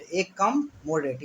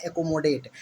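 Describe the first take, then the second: First: "एक कम मोडेट" slowly, as three separate words; teacher's drawn-out split of "एक कम मोडेट". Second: Said in the usual way. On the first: Shown as a demonstration. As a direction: break it into "एक", "कम", "मोडेट". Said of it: "इसको पढ़ते हैं एकोमोडेट". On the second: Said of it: "इसको पढ़ते हैं".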